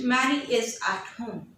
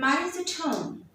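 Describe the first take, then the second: First: Every word is said fully, without contraction. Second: 'Is' is contracted and 'at' is weakened. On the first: The speaker calls it wrong. "I'm not using it" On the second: The speaker calls it right. "you will weaken them for the sake of fluency"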